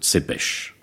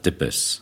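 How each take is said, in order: First: The name begins with a ts sound. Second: The name begins with a plain t sound.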